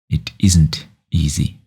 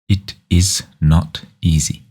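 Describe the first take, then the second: First: The word 'isn't' is said most strongly. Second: The word 'not' is said most strongly. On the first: "is гэдэг үгийг илүү тод хэлж байна гэсэн үг" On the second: "not гэдэг үгийг илүү тод хэлж байна гэсэн үг"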